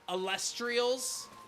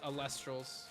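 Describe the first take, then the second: First: The name ends with an extra 'ee' vowel: trials. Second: The name ends without the extra vowel: trals. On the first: The speaker calls it wrong. "A lot of people mis mispronounce the name of the game as" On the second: The speaker calls it right. "But it is"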